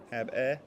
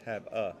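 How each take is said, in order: First: The second syllable has a clear 'eh' vowel. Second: The second syllable has a reduced 'uh' vowel. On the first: The speaker calls it wrong. "It looks there is actually an E" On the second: The speaker calls it right. "but it's have uh"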